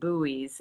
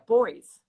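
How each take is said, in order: First: The word is said the American way. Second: The word is said the Australian way. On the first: "where we say it buoys" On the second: "they pronounce it differently in Australia"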